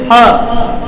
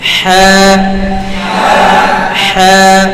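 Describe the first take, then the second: First: The h is produced abruptly, without flowing breath. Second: The h is produced with audible, flowing breath. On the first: The speaker calls it wrong. "Direct কিন্তু হ হ হবে না" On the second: The speaker calls it right. "বাতাস চালু আওয়াজ চালু"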